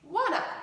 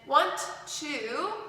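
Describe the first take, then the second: First: The words blend into one reduced form. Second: Both words are said separately and fully. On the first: "combines to make wanna" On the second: "want to combines to make"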